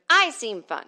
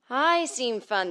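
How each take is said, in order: First: "I" punched abruptly, loud and high; quick, punchy "I" at the front; hard attack on I. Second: Slow, drawn-out I on a raised, louder pitch; stretched, sustained vocal-exercise delivery; voice-coach correct speech. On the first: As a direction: hit "I" hard, then drop through "seem fun". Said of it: "instead of". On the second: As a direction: glide into "I seem fun" as a trained voice would. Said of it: "teach us how to talk correctly". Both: Shown as a demonstration.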